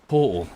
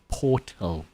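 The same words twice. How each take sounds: First: The T in the middle is dropped. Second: The T in the middle is pronounced.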